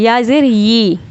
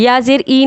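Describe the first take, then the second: First: "या ज़ेर यी" ending on a clear "yee"; with y sound. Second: "या ज़ेर ई" ending on a bare "ee"; wrong, no y sound. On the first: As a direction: sound the y glide at the start of "यी". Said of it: "यहाँ पे या की आवाज़ निकालनी है". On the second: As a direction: drop the y glide from the final "ई". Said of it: "ई की नहीं". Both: Shown as a demonstration.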